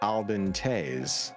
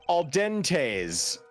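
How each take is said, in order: First: The name is said with a toned-down accent. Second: The name is said with an exaggerated accent. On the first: "I deliberately tried to pronounce it slightly different so that it wouldn't be so fucking agonizing" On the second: "if you want me to really ham it the fuck up, then here you go"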